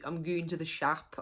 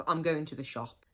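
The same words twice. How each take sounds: First: "shap" with a flat open a, Black Country style. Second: Said in the usual way. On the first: Shown as a demonstration. Teaching Black Country dialect, a broad local "shap". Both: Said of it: "So if you hear people saying".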